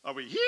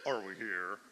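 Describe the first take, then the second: First: HERE pitched up high; "here" lifted to a higher key. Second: HERE dropped to a low note; "here" set in a much lower key. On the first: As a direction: sing out HERE on a high note. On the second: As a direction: pitch HERE way down. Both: Shown as a demonstration. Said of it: "telling us the key".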